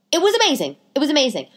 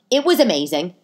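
First: Amazing said much higher and thrilled; excited higher rave; gushing. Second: Said in the usual way. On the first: Real, not acted. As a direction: rave about it, pitch soaring. Repeated praise, building.

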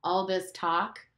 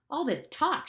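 First: Said in the usual way. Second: High, angry outburst; shouted, pitched up. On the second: Acted. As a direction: snap at the whole meeting. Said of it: "shouted Ralph".

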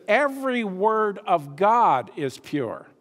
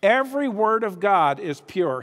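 First: Slow, weighty reading of every word; slow emphatic reading. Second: Every punched, the rest falling away; stress on Every. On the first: Preacher reading the verse to the congregation, slow and emphatic. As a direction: lean on each word of the verse. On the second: Preacher rereading the verse to stress Every, emphatic. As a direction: lean hard on the first word Every. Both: Shown as a demonstration. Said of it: "understand my emphasis in reading?".

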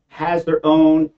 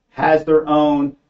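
Both takes have the same delivery.

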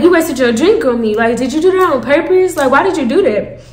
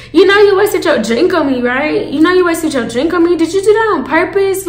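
First: Said in the usual way. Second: Higher-pitched pointed questioning; confronting. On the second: Retold or imitated. Asking Selfish about the wasted drink, confronting. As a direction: press her for an answer, pitch raised.

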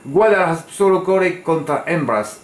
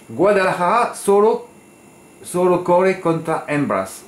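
First: Higher, quicker Spanish accent, weight on "Guadalajara"; retry "Guadalajara solo corre contra hembras" with a more fluid Spanish accent. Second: Slow, higher Spanish accent with rolled emphasis on "solo". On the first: Tipster retrying his Spanish after losing his accent, Spanish accent. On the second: Tipster quoting his Spanish message to the jockey, Spanish accent. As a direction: say "Guadalajara solo corre contra hembras" as a native Spanish speaker would, slow and lifted. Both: Shown as a demonstration. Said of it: "J'ai perdu mon accent".

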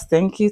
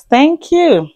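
First: Said in the usual way. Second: Higher, louder playful thanks; big thank you. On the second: Acted. Thanking new subscribers, higher and louder with playful punch. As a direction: throw the thanks up high and loud.

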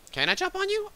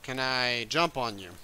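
First: Put-on squeaky baby-talk question to a bug; cutesy high. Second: Said in the usual way. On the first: Player coos at the ladybug, squeaky high. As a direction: coo it up high like talking to a pet. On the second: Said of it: "Are you bad?".

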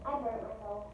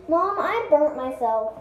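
First: Quiet, to herself; soft, fading complaint. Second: Calling out to mom, slow; slow, loud call across the house. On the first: Repeated to herself. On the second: Child calls to mom. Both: Real, not acted.

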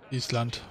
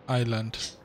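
First: Island said as "Ees-lant", s voiced out as written; tentative pronunciation. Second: Island said as "Eye-land", silent s; tentative pronunciation. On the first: Player unsure of the island's name, trying "Ees-lant" for Island. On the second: Player unsure of the island's name, trying "Eye-land" for Island. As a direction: say Island with a long "eye" start and no s. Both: Real, not acted. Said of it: "wie spricht man das".

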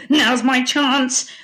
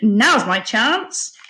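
First: Slow, raised pirate-villain voice; scheming pirate cry. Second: Slow, eager cry with a rising end; young hero's cry. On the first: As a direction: seize your chance as the pirate, drawn out. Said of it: "cried Barnacle Bill". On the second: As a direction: seize the moment, stretching it upward. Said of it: "cried Mungo". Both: A narrator's reading.

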